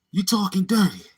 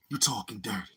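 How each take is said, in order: First: Said in the usual way. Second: Breathy whispered line; whispering. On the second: Real, not acted. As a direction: whisper it to yourself. Whispered repetition.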